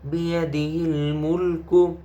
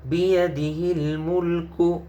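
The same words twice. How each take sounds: The two takes are said the same way.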